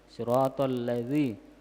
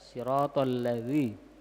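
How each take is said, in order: First: The consonant is a soft th sound. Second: The same.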